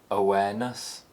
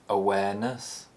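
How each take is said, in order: First: The pitch rises to a high point. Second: The pitch rises to a high point.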